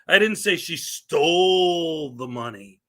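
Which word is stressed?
stole. The word 'stole' is stressed. She got the money some other way. "It means I didn't say she stole it"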